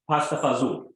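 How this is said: It is said with Northeast American pronunciation.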